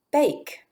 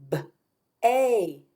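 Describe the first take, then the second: First: Said in the usual way. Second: B-ache split into b, long ay, k; sounded out. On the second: Shown as a demonstration. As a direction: break B-ache into slow separate sounds with gaps. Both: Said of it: "tap out those sounds".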